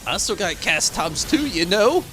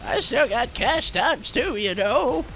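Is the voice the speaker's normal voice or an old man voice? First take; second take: normal; old man. First: It is said in a normal, natural voice. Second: It is said in a put-on old man voice.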